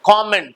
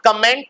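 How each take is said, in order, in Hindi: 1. पहले अक्षर में खुला 'kaw' स्वर है। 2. पहले अक्षर में छोटा 'kuh' स्वर है। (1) "कॉमेंट वर्ड है" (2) "इट्स नॉट कमेंट"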